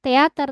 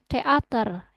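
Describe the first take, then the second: First: The word is said smoothly without a break. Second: The word is said with a break between parts. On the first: The speaker calls it wrong. "nggak teater" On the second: The speaker calls it right. "tapi teater ... ada penggalannya"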